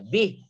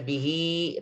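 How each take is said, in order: First: The word ends on the h, with no vowel. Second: The word ends with a vowel after the h. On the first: The reading stops at this word. The speaker calls it right. "Tapi sukunkan hanya bih, maka tidak ada mat lagi padanya" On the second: The reading continues into the next word. The speaker calls it wrong. "Jangan dibaca bihi"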